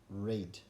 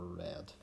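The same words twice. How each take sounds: First: The vowel is long, rhyming with 'seed'. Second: The vowel is short, rhyming with 'bed'. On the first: The reading happens now or habitually. "We all like to read a good book" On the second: The reading happened in the past. "last week I read a good book"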